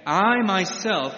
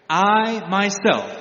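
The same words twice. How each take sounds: First: I punched loud and slow again; slow, weighty I before myself; I said long and loud; stress on I. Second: I punched loud and slow, then myself; I held long and loud; stress on I. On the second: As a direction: lean hard on the word I in I myself. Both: Shown as a demonstration. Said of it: "The first person pronoun, I, in verse four, is emphatic".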